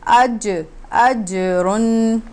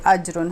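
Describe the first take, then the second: First: The j sound bounces with a slight echo. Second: The j sound is flat, with no bounce. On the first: The speaker calls it right. "हम इसको पढ़ेंगे" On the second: The speaker calls it wrong. "इसको हम ऐसे नहीं पढ़ेंगे"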